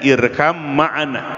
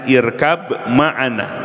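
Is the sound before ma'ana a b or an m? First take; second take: m; b. First: The first word ends with an m sound. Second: The first word ends with a b sound. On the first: This is how it is actually recited. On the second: This is the underlying written form.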